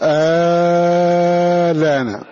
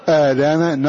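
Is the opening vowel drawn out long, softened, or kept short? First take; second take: long; short. First: The opening vowel is drawn out long. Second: The opening vowel is kept short. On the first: "فإما أن يمده نظرا للأصل" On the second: "وإما أن يقصر آلان نظرا لحالة الراهنة"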